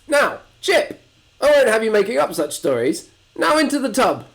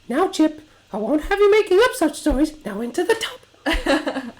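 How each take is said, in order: First: It is said in a harsher voice. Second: It is said in a much softer voice.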